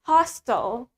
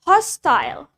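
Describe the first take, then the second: First: It is said in an American accent. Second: It is said in a British accent. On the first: "in American, sedangkan di American accent, we say it hostile" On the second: "That's in British English. ... Di British kita pakai I"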